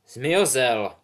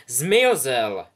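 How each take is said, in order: First: Hat's announcement. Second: Loud, falling call of the house; hat's loud announcement. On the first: Hat announces after long pause. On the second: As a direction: proclaim it to the hall. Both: Acted.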